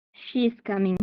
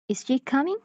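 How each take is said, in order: First: "She is coming" with the tune falling at the end; falling intonation. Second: "Is she coming" climbing high on "coming"; rising intonation. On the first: Teacher demonstrating a statement to students, falling intonation. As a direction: say "She is coming" as a settled statement, pitch dropping. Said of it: "have a falling intonation". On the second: Teacher demonstrating a yes-or-no question, rising intonation. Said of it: "often have a rising intonation". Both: Shown as a demonstration.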